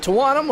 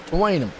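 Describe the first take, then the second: First: Tawanum with an open "ah", as in tuh-WAH-num; first pronunciation, "wahn". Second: Tawanum with a long "ay", as in tuh-WAY-num; second pronunciation, "wayn". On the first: Announcer trying out a name, Tawanum said tuh-WAH-num. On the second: Announcer offering an alternative name, Tawanum said tuh-WAY-num. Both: Shown as a demonstration. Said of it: "is it Tawanum or Tawanum".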